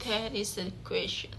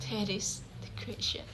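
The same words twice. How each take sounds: First: Softer, gently falling quoted line; a soft verse reading to show the meter; soft recitation. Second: Breathy stage whisper, falling away; a hushed Hamlet musing to himself; whispered line. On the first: Shown as a demonstration. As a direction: read the line quietly to show its rhythm. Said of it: "The third aspect is prosody". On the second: Acted. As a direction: whisper it like a secret thought. Quotes Hamlet's soliloquy line.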